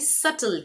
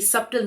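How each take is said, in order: First: The b sound is silent in the middle. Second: The b sound is pronounced in the middle. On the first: The speaker calls it right. "यहाँ पे बी silent है" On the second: The speaker calls it wrong. "ये सब्टल नहीं है"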